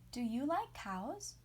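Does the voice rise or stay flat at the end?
rise. The voice goes up at the end.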